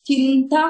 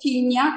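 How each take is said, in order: First: The word has a plain t sound after chin. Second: The word has only a y sound after chin. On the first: "చింత కాదు" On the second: "చిన్య కాదు"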